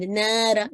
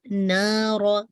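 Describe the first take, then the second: First: "नारा" with the alif sent through the nose; "नारा" nasalized on the long a; "नारा" with a nasal alif; wrong nasal alif. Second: Slow "नारा" with a clear, non-nasal alif; "नारा" drawn out, heavy ra, no nasal; "नारा" with a clean oral alif; correct nara. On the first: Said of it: "ऐसे nasal sound में नहीं करनी". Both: Shown as a demonstration.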